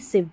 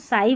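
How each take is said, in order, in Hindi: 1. स्वर एक छोटी 'ih' ध्वनि है। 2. स्वर एक लंबी 'eye' ध्वनि है। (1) "इव पढ़ेंगे" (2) "साइव नहीं पढ़ेंगे"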